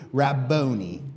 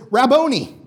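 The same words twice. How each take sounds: First: Said in the usual way. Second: A blind man's loud, high cry of "Rabboni"; shouted Rabboni. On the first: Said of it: "we're gonna say Rabboni together". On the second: Retold or imitated. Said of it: "he goes up and he says".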